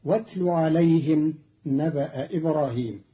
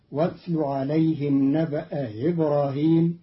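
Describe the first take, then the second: First: نبأ إبراهيم with a clear hamza on إبراهيم; standard reading. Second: إبراهيم with its hamza softened toward ya; Qalun's reading. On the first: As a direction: keep the glottal stop in إبراهيم. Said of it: "قرأ قالون كلمتي نبأ إبراهيم". (تحقيق الهمزة في إبراهيم) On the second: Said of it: "بتسهيل الهمزة المكسورة بين بين". (تسهيل الهمزة المكسورة بين بين) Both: Shown as a demonstration.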